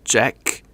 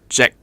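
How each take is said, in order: First: The final K sound is clearly pronounced. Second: The final K sound is clipped and unreleased. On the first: "in the English word jack" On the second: "the Cantonese way of pronouncing it would be jack"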